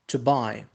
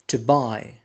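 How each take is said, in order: Both takes have the same delivery.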